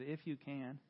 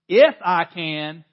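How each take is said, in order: First: It is said plainly, without attitude. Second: It is said loudly, with sassy attitude.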